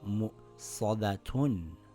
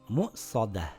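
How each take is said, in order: First: The word ends with a full 'tun' sound. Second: The word ends with a soft h sound. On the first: The reader continues past this word. "But if I continue reading, I will read it as mu'sadatun" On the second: The reader stops at this word. "So when I stop, ... It reads mu'sadah"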